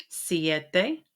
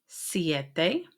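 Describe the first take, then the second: No difference in how they are said.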